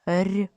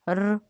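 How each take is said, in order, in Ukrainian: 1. Звук р м'який, пом'якшений. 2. Звук р твердий, не пом'якшений. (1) "м'який" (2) "твердий"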